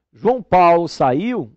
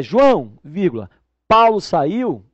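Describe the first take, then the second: First: Said in the usual way. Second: "João" set apart with a loud falling stop, then "vírgula, Paulo saiu" slowly; pause after João. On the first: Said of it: "Se eu chego para você e digo". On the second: Shown as a demonstration. Teacher shows students "João" as a vocative with a pause. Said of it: "eu passo a ter duas pessoas".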